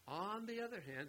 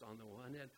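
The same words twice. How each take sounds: First: "On the other hand" lifted much higher; "On the other hand" raised high for weight; emphasis on "On the other hand". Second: Said in the usual way. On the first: Shown as a demonstration. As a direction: hit "On the other hand" as the main point. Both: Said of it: "the other hand is what's emphasized".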